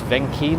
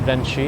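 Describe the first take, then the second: First: The middle consonant is a hard k sound. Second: The middle consonant is a ch sound. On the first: The speaker calls it right. "I think that's how you pronounce that place" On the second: The speaker calls it wrong.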